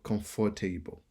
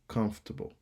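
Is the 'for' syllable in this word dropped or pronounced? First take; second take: pronounced; dropped. First: The 'for' syllable is fully pronounced. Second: The 'for' syllable is dropped. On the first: The speaker calls it wrong. "Natif lan pa di comfortable" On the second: The speaker calls it right. "Nou pa oblige prononcer F O R pour le ba nou troisième syllabe"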